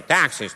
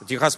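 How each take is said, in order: First: It is said with an American pronunciation. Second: It is said with a Russian pronunciation. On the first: "Знаете, как они?" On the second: "Техас по-английски Texas"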